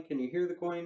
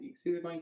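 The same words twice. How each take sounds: First: "Can you hear the coin" higher, weight on "hear"; emphasized question. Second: "You can see the coin" stated, higher on "see"; told, not asked. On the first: Magician recapping the question to the spectator, emphasized. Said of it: "And I really emphasize that". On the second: Magician recapping the routine, as a statement. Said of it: "I tell him". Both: Shown as a demonstration.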